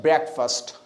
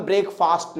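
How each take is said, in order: First: ब्रेकफास्ट with a short second vowel, "brek-fust"; lower-pitched ब्रेकफास्ट, ending in a short "fust"; correct pronunciation. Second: ब्रेकफास्ट as "brake-faast", long open second vowel; wrong pronunciation. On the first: Teacher giving students what we will say, dictionary pronunciation. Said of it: "हम क्या कहेंगे?". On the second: Teacher showing what we will not say, spelling pronunciation. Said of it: "हम ब्रेकफास्ट नहीं कहेंगे". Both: Shown as a demonstration.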